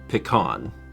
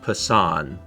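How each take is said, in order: First: The middle consonant is a K sound. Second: The middle consonant is an S sound. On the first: "what he meant to say is pecan" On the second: "gave the the C an S sound? Like the C in a ceiling"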